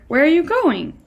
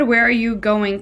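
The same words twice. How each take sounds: First: "Where are you going?" said high and questioning, lifted on "going"; read as a real question. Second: Said in the usual way. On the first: Shown as a demonstration. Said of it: "he's reading it like". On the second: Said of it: "it doesn't really help".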